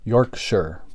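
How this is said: It is said the British way. "I believe it's technically pronounced"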